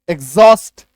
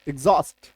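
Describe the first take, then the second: First: The stressed part is said deliberately loud. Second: The word is said at normal loudness. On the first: "मैं थोड़ा sound को जान करके आपको जोर से बोलता हूं" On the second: "इसका सही उच्चारण है"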